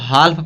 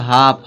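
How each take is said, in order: First: The L sound is pronounced in the word. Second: The L sound is silent in the word. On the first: The speaker calls it wrong. "कुछ लोग इसको हाल्फ पढ़ देते हैं" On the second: The speaker calls it right. "इसको क्या पढ़ा जाएगा"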